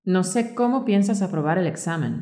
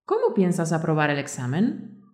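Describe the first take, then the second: First: "cómo" stressed, with the tune falling at the end; flat statement. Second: "¿Cómo" stressed, with the tune rising at the end; direct question. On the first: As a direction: say "No sé cómo piensas aprobar el examen" as a statement, dropping at the end. (afirmación, entonación descendente al final) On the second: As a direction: ask it outright, "¿Cómo piensas aprobar el examen?" climbing at the end. (pregunta directa, entonación ascendente al final) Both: Shown as a demonstration. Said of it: "Por ejemplo".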